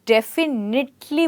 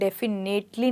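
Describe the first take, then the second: First: The third syllable is said as a short 'nit'. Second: The third syllable is said as a long 'nate'. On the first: The speaker calls it right. "डेफिनेटली बोलते हैं" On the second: The speaker calls it wrong. "डेफिनेटली नहीं बोलते हैं"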